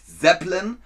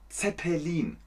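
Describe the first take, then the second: First: The word is said with an English pronunciation. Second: The word is said with a German pronunciation. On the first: It names the rock band. The speaker calls it wrong. "Man sagt nicht Zeppelin" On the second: It names the airship. The speaker calls it right. "man sagt Zeppelin"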